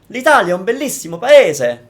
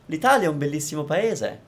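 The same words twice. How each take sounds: First: Syllables and vowels are heavily exaggerated. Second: Even syllables with some lively personality added. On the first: The speaker calls it wrong. "Saying it in the exaggerated way that you might be saying" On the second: The speaker calls it right. "you can put in your personality in it"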